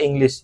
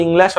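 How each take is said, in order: First: "ইংলিশ" opening on an e sound, "ENG-lish"; taught alternative pronunciation. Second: "ইংলিশ" with open "-lash" ending; taught pronunciation. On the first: ("ইংলিশ"-কে "এংলিশ" উচ্চারণ) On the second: ("ইংলিশ"-কে "ইংল্যাশ" উচ্চারণ) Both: Shown as a demonstration. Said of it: "এরকম উচ্চারণ হবে আর কি".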